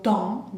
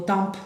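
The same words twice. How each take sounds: First: "temps" as a nasal vowel with no P; nasal, silent P. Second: "temps" wrongly said with an audible P, like "tamp"; wrong, P sounded. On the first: Teacher modelling the right sound, "temps" nasal with silent P. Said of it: "bien nasal". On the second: Teacher showing what not to say, "temps" with the P sounded. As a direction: pronounce the P at the end of "temps". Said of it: "no digo temps". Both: Shown as a demonstration.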